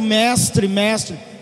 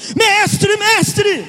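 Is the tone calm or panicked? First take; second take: calm; panicked. First: It is said calmly, like plain reading. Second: It is said in a terrified, urgent voice.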